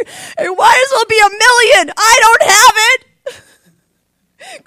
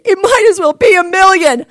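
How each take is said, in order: First: Loud, high, tearful wail, slowing down; breaking into tears, crying out. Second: Loud, high cry of despair; retold outburst. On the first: Retold or imitated. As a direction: sob it out in despair. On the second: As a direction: throw it out like it's hopeless. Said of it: "That's what I said".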